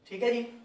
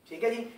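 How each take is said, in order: Both takes have the same delivery.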